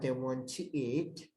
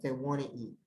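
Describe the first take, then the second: First: Each word is said slowly and separately. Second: The words run together quickly as one unit. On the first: The speaker calls it wrong. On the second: The speaker calls it right.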